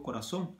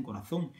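First: "corazón" with an s sound for the z. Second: "corazón" with a Spanish th for the z; Castilian th on "corazón". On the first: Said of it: "porque no la pronuncio". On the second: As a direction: say the z in "corazón" as in "think". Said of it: "aquí dicen". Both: Shown as a demonstration.

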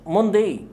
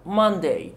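First: "Monday" with a rounded o, mon-day; wrong pronunciation. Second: "Monday" with a short uh vowel, mun-day; right pronunciation. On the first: Teacher showing the wrong vowel in Monday. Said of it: "مش هيكون صوته أه". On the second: Teacher giving the correct Monday. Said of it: "لا Monday". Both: Shown as a demonstration.

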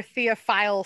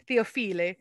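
First: Said in the usual way. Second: "Theophile" as Italian-style "Theo-FEE-lee"; Italian accent. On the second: Real, not acted. Teacher repeating a French artist's name, in an Italian accent. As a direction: say "Theophile" with a playful Italian ending, "-feelee". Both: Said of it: "saying it with an Italian accent".

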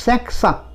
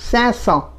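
First: Cinq cents with the q sounded, said as sank cents; the wrong version, cinq cents with a hard k before cents. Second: Cinq cents with a silent q, said as san cents; the corrected version, cinq cents with no k sound; right way. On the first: Teacher demonstrates the wrong French pronunciation of cinq cents. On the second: Teacher gives the correct French pronunciation of cinq cents. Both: Shown as a demonstration. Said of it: "not cinq cents".

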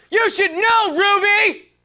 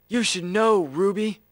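First: Very high, forceful yell; high-pitched, over-the-top scolding; shouted outburst. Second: Said in the usual way. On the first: Acted. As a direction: yell it at the top of your range. Same line redone far more forcefully.

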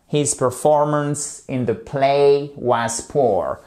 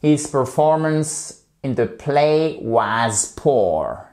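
First: "His performance in the play was poor" again, slow, stress on "play"; slow model sentence, repeated. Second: "His performance in the play was poor" said slowly, word by word; slow model sentence. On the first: Teacher repeating the example so students can copy. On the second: Teacher slowly modelling an example sentence for students. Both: Shown as a demonstration. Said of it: "une phrase un peu détournée".

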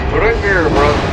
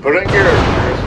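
First: Higher, pushier urging; urging louder. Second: Urging. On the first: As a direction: push him harder. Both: Real, not acted. Urging his ship on.

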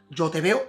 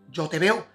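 Both takes have the same delivery.

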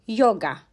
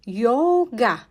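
First: Said in the usual way. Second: "Yoga" drawn out as Yo-ga; syllable-by-syllable pronunciation. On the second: Shown as a demonstration. Teacher showing learners how "Yoga" is read, syllable by syllable. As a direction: split "Yoga" slowly into two syllables. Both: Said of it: "Bu şekilde okunuyor".

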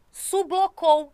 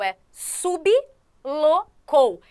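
First: Sublocou said slowly, syllable by syllable, sub-lo-cou; syllabified slowly. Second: Sublocou stretched very slowly as su-bi-lo-cou; syllabified with extra vowel. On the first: Teacher sounding out sublocou for students, slow and syllabic. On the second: Teacher correcting students, sounding out sublocou very slowly. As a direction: draw out sublocou with an added i after the b. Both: Shown as a demonstration. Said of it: "não é sublocou, é sublocou".

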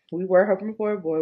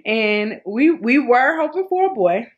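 First: Said in the usual way. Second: Excited. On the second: Real, not acted.

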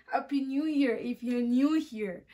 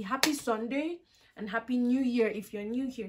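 First: Slow, chuckling repeat of the wordplay on "new here"; laughing at own pun. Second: Said in the usual way. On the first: Shown as a demonstration. Vlogger repeats her pun to viewers, laughing. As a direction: lean on "new" and laugh through the line. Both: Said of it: "Did you guys get that?".

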